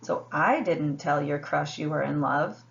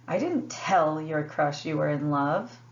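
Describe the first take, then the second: First: The stress is on "I". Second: The stress is on "tell".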